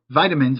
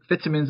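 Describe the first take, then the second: First: It is said with an American accent. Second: It is said with a British accent.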